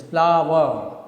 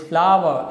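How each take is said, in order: First: "flower" divided into two beats, flow-er; two divisions. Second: Said in the usual way. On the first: Shown as a demonstration. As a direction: say "flower" louder, syllable by syllable. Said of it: "speak the word in two divisions".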